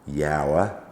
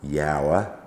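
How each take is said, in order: First: It has two syllables, like 'yow-er'. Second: It has two syllables, like 'yow-er'.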